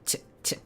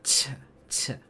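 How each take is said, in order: First: The consonant is released with little breath. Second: The consonant is released with a strong puff of breath. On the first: "So this one a drier one" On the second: "I'm gonna put a breathy ch"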